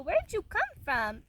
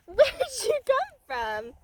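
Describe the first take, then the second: First: Said in the usual way. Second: High, slow, laughing coo of "Where'd you come from?". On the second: Real, not acted. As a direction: tease the kitten fondly, stretching the words. Same question, cooed.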